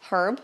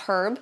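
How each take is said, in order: The two takes are said the same way.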